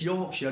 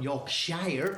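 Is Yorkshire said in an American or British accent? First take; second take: British; American. First: It is said in a local British way. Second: It is said in an American way. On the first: The speaker calls it right. "So it's Yorkshire" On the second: The speaker calls it wrong. "not Yorkshire"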